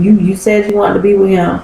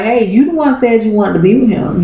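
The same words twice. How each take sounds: First: You, you said, with You hit hard and repeated, said faster; pressing the word you. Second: Said in the usual way. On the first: Retold or imitated. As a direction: jab at the word you as you hurry through. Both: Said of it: "Jake pretty much told her, like".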